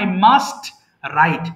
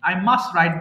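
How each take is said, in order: First: The t of must is clearly pronounced separately. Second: The t of must is dropped before write. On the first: The speaker calls it wrong. "আমি কিন্তু ভেঙে পড়ছি না, বলছি না" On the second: The speaker calls it right. "মাস্টের টিটা আমরা উচ্চারণ করব না, আই মাস্ট রাইট বললেই হবে"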